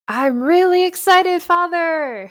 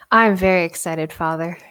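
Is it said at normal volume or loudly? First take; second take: loudly; normal volume. First: It is said loudly, almost shouting. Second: It is said at normal volume.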